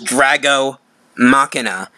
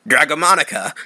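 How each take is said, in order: First: The second word sounds like 'Machina'. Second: The second word sounds like 'Monica'. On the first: The speaker calls it right. "I kept trying to tell her how to pronounce it right" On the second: The speaker calls it wrong. "she kept saying it wrong"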